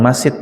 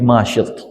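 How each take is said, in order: First: The middle consonant is a plain 's' sound. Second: The middle consonant is an 'sh' sound. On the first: The speaker calls it wrong. "bukan Masyit" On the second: The speaker calls it right. "tapi Masyit, pakai pakai shin"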